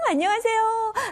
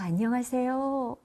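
First: It is said in a cheerful, excited tone. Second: It is said in a warm, caring tone.

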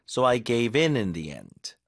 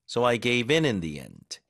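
No difference in how they are said.

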